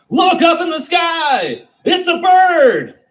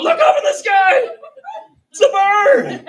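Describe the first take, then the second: First: High, slow, loud yell; first guy in the crowd yelling at the sky; booming excited cry; excited shout. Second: Very high, loud, laughing yell; grabbing strangers to point at a bird; hammed-up laughing shout; mock excited yell. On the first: Retold or imitated. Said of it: "he's the one that goes". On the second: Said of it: "grabbing other strangers on the street and going".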